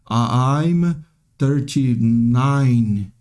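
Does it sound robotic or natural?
robotic. It sounds hesitant and robotic.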